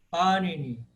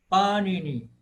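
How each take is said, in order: No difference in how they are said.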